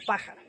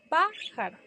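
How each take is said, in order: First: Said in the usual way. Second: "Pájaro" split, PÁ high and strong, then jaro; stress on PÁ. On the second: Shown as a demonstration. Teacher showing the antepenultimate accent, "Pájaro" split after a high stressed PÁ. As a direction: punch PÁ in "Pájaro", pause, drop for jaro. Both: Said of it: "Lleva en la antepenúltima".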